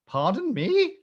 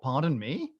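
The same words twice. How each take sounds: First: Much higher 'Pardon me?', swooping up at the end; incredulous echo. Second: Mildly puzzled echo, rising at the end; incredulous echo. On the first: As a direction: escalate into hammed-up disbelief on 'Pardon me?'. Repeats the echo, more incredulous. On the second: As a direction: repeat 'Pardon me?' as a restrained question. Echoing the passenger's words in disbelief. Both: Retold or imitated.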